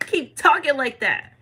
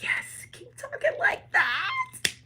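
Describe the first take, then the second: First: Slower, somewhat raised voice; slow encouragement. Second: Very high, drawn-out mock squeal; delighted squeal. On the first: Retold or imitated. Spirits egging on the bold believer, slow and approving. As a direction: draw out the encouragement. Same reply repeated in lower voice. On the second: Spirits egging on the bold believer, delighted squeal. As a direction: squeal it slowly in a high put-on voice. Voicing the cheering spirits' reply.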